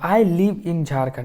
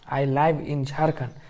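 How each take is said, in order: First: Live is said with a short i, like liv. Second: Live is said with an eye vowel, like lyve. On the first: The speaker calls it right. "उसका sound है लीव" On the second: The speaker calls it wrong. "इस तरह मत बोल दीजिएगा आई लाइव"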